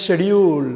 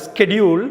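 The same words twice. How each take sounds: First: ஷெடியூல் with 'sh', drawn out; British pronunciation. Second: ஸ்கெடியூல் with hard 'sk'; American pronunciation. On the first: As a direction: drop the k, open ஷெடியூல் on 'sh'. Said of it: "யூ கேல". (ஷெடியூல் - British 'ஷ' உச்சரிப்பு) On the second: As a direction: sound the k in ஸ்கெடியூல். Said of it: "அமெரிக்கால". (ஸ்கெடியூல் - அமெரிக்க 'ஸ்க' உச்சரிப்பு) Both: Shown as a demonstration.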